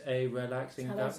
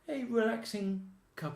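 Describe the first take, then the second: First: It is said flatly, like a robot. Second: It is said lively, with a playful touch. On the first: The speaker does not really know the language. The speaker calls it wrong. "she sounds like a robot speaking... She was just talking like this" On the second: The speaker is at ease and joking. The speaker calls it right. "you need a little joke... Sounds fine to me"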